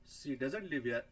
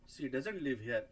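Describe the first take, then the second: The two takes are said the same way.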